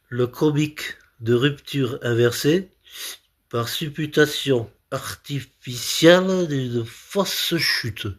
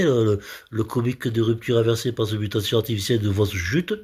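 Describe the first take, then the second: First: Slow, careful recital in separated chunks; laboured concentration. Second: Fast, fluent run through the term; well-delivered patter. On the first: Comedian concentrating on a difficult comic term, laboured. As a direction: pick through a difficult term piece by piece. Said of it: "je me concentre parce que c'est difficile". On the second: Comedian showing the term works when well delivered, brisk. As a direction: rattle the long term off in one go. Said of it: "quand c'est bien tam-, bien amené". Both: Shown as a demonstration.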